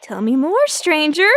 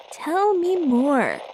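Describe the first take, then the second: First: Said in the usual way. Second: Slow, drawn-out, savoring Tell me more. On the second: Acted. Reporter savoring a scoop from the caller, slow and drawn out.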